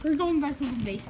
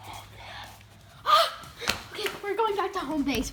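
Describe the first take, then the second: First: Said in the usual way. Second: Breathy laughing whisper. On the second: Real, not acted. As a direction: giggle through it. Laughing reply.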